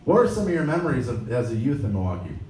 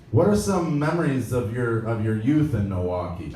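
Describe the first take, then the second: First: Mock dopey self. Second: Said in the usual way. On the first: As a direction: blurt it out like a nervous fan. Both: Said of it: "I really sounded this stupid".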